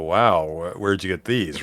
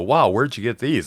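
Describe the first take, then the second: First: The voice sounds taken aback and dismayed. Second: The voice sounds impressed and admiring. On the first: The boards look alarmingly bad. "same words, but the inflection is everything" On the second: The boards look impressively professional. "no one's gonna look at my boards and go"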